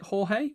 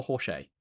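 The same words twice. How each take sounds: First: Jorge said "hor-hay", with an h sound in the middle. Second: Jorge said "hor-shay", with a sh sound in the middle. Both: Shown as a demonstration. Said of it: "am I pronouncing that right".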